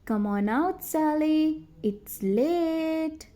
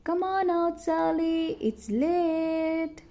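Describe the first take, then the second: First: Calling out, a bit higher at the end; yelling again. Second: Yelling. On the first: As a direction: call across the dark. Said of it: "They yelled again". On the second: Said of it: "both boys yelled out". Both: A narrator's reading.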